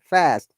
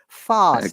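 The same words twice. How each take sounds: First: It is said with an American flat vowel. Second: It is said with a British broad vowel.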